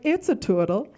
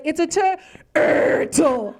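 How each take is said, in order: First: The r sound is weak or missing. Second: The r sound is strongly exaggerated. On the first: The speaker calls it wrong. "when I said it wrong" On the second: The speaker calls it right. "overpronounce the sound, like just on steroids"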